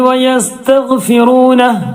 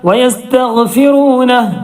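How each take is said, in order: The two takes are said the same way.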